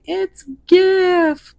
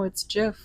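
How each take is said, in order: First: The word starts with a hard g sound. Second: The word starts with a j sound. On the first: This is how many other people say it. The speaker calls it wrong. "there's a lot of you out there going" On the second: This is how the word's creator says it. The speaker calls it right. "Like the peanut butter, Jif"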